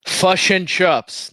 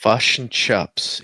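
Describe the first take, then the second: First: Very slow, higher American take on Kiwi words; bland American accent. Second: Slow Kiwi "fush and chups", sounding it out; attempted New Zealand accent. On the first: Joking after the lesson, failed New Zealand in American accent. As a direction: draw out the words in plain American. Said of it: "in a bland American accent". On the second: Trying the co-host's lesson, New Zealand accent. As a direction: slowly test the New Zealand vowels. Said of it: "you want to speak New Ze". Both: Shown as a demonstration.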